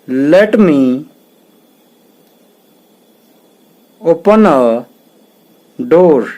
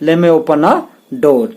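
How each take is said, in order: First: Both words of 'let me' are said in full. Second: 'Let me' is run together as 'lemme'. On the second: "लेट मी की जगह पे हम लेमे का प्रयोग भी कर सकते हैं"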